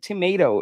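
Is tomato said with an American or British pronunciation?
American. Tomato is said with an American pronunciation. The speaker calls it wrong. "not tomato"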